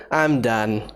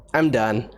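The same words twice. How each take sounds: The two takes are said the same way.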